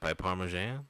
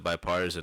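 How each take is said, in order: First: The word ends with a '-mesan' sound. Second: The word ends with a '-tisan' sound. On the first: The speaker calls it wrong. "I was like, biparmesan?" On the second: The speaker calls it right. "Instead of bipartisan"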